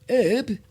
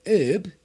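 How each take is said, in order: No difference in how they are said.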